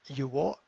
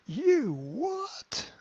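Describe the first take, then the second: First: It sounds only mildly surprised. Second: It sounds strongly surprised. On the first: The speaker calls it wrong. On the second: The speaker calls it right.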